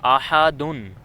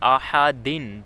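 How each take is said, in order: First: The word ends with an -un sound. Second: The word ends with an -in sound. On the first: "इस पे दो पेश हैं दाल पे" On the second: "दाल पे दो ज़ेर हैं"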